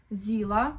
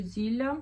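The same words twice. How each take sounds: First: "Зіла" with a hard L. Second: "Зілля" with a soft, palatal L. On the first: Vlogger unsure of the brand name, "Зіла" with hard L. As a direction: say "Зіла" with a plain, hard L before the A. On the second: Vlogger trying the other brand reading, "Зілля" with soft L. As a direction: say "Зілля" with the L softened into "lya". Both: Shown as a demonstration. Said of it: "не знаю, як правильно".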